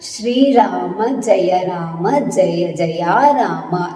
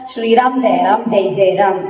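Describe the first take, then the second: First: Said separately with every final vowel fully pronounced. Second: Said quickly with the final vowels clipped off. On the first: The speaker calls it right. "ಇದನ್ನ ನೀವು ಬಿಡಿಸಿನೇ ಹೇಳ್ಬೇಕು" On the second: The speaker calls it wrong. "Speed ಆಗಿ ಹೇಳ್ಬೇಕು ಅನ್ನೋದಕ್ಕೋಸ್ಕರ"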